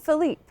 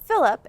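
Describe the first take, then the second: First: The name is said with a French pronunciation. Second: The name is said with an American pronunciation. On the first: Everything is fine between them. "every time everything's cool, she calls him Philippe" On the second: She is angry at him. "every time she gets mad at him, she calls him Philip"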